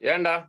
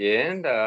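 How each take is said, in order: First: It is said in a harsh, threatening tone. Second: It is said in a soft, gentle tone. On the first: The question is a threat. "ஒரு மிரட்டலா ஒரு வார்த்தை சொல்றதுக்கும்" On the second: The question is a kind inquiry. "இதமா சொல்றதுக்கும்"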